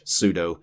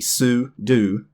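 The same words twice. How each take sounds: First: The word ends with a 'doh' sound. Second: The word ends with a 'doo' sound. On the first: The speaker calls it wrong. "most people probably mispronounce this one" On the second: The speaker calls it right. "It actually is supposed to be su-do"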